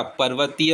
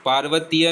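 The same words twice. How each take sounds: First: पर्वतीय begun with short "par"; correct short vowel. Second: पार्वतीय begun with long "paar"; wrong long vowel. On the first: Teacher giving the correction, पर्वतीय with short "par". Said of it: "पर्वतीय होता है". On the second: Teacher showing the mistake, पार्वतीय with long "paar". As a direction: lengthen the first vowel of पार्वतीय. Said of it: "पार्वतीय नहीं होता". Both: Shown as a demonstration.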